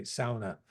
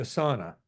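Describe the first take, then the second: First: Sauna said Finnish-style, first syllable rhyming with "cow"; Finnish pronunciation. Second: Said in the usual way. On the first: Shown as a demonstration. Lecturer quotes the Finns' word, sauna pronounced SOW-nah. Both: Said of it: "or as the Finns say".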